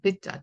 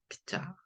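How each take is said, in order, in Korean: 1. 두 번째 음절은 평음으로 시작해요. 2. 두 번째 음절은 경음으로 시작해요. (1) "피자가 아니라" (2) "좀 된 소리로"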